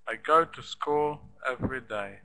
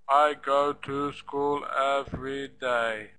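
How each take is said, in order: First: Some syllables are loud and some are quiet. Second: Every syllable is flat and equal, like a robot.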